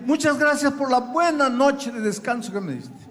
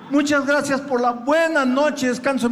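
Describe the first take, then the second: First: Said in the usual way. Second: Laughing through the rote thanks; mock the empty thanks with a laugh. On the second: Se burla del agradecimiento rutinario. (agradecimiento burlón entre risas)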